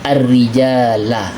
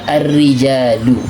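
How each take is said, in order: First: The word ends with an a vowel. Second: The word ends with a u vowel. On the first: The speaker calls it right. "yang dibolehkan adalah i'rab nasab fathah" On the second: The speaker calls it wrong. "tidak boleh dibaca ar-rijalu"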